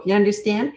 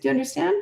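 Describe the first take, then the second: First: "You understand?" thrown out with a snotty edge; the wrong way, snotty. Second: The right way, calm and kind; calm question. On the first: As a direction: sneer the question at the kid. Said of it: "Don't get snotty". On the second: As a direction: ask gently but in charge. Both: Shown as a demonstration.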